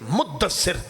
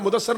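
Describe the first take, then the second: First: The d sound is held long, doubled. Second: The d sound is short, not doubled. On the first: The speaker calls it right. "दो मरतबा शादा है इसकी" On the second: The speaker calls it wrong. "इसी तरह मुदस्सर नहीं"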